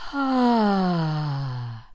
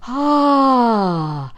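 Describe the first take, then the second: First: It is an airy sigh with little voice. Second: It is a sigh with more voice in it. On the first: "here's number three" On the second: "the sighing ah. So it's a little bit more phonated"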